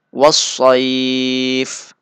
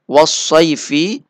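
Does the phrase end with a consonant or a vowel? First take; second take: consonant; vowel. First: The phrase ends on a consonant. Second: The phrase ends with a short vowel. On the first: The reader stops at this word. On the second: The reading continues without a stop.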